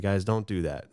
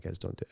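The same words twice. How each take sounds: First: Said in the usual way. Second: Softer, hesitant "don't" to the guys; a nervous kid's soft plea; quiet worried hush; timid softer warning. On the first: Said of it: "And I was, like, worried". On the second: Retold or imitated. Kid nervously warning friends.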